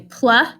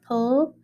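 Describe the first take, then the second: First: The blend ends with an added uh vowel. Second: The blend ends without any added vowel. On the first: The speaker calls it wrong. "they say pluh instead of pull" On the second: The speaker calls it right. "instead of pull"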